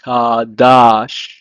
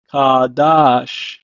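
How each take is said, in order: First: Kadash said ka-dash, clear sh; Hebrew pronunciation. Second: Kadash repeated, falling; Hebrew pronunciation. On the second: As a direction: model Kadash again. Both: Shown as a demonstration. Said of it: "pronounced as".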